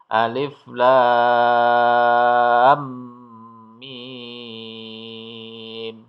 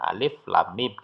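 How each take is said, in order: First: Lam runs into mim with long held vowels. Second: Each letter name is said separately and briefly. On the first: "dibunyikan dengan bertajwid, maka dia bacanya menjadi alif lam mim" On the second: "kalau ini dibaca secara huruf ya, hanya alif lam mim gitu saja"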